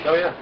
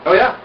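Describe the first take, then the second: First: Said in the usual way. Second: Rising, eager "Oh, yeah."; excited oh yeah. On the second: Shown as a demonstration. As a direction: say "Oh, yeah." with a lift on yeah. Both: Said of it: "repeats it differently".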